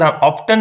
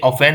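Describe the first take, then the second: First: The word is said with a t sound. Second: The word is said without a t sound. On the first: The speaker calls it wrong. "ये टी यहां पर ऑफ्टन नहीं है" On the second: The speaker calls it right. "ये ऑफेन है, तो टी silent हो गया"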